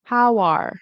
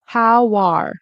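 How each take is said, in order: The two takes are said the same way.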